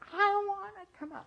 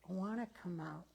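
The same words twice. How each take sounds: First: It is screamed loudly with high energy. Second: It is said at a calm, normal loudness. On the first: The bird has grown impatient and upset. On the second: The bird is only starting to ask.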